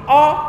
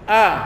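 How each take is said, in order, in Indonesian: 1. Vokalnya tebal, mulutnya dibuka lebar. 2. Vokalnya tipis, bibirnya direntangkan ke samping. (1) "Kalau a itu salah, keliru. Itu a ketebalan, hamzah yang tebal" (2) "Dia hanya begini"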